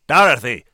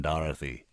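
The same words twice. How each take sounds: First: Very loud, commanding shout; thundering. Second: Softened, kindly use of her name; gentle. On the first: Senator cuts off the woman's outburst, thundering. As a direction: thunder the name to stop her short. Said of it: "he thundered". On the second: Senator smiles and reassures the woman, gently. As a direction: say the name gently, without force. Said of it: "He smiled, and the smile seemed to melt decades". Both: A narrator's reading.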